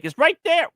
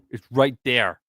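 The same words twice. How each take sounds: First: "there" shot up high; high indignant. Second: "right" stressed, falling at end; firm insistence. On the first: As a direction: pitch squeaks up on "there". Repeated with different stress. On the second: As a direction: lean on "right" calmly. Second take, normal pitch. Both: Real, not acted.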